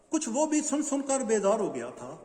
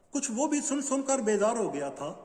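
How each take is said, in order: The two takes are said the same way.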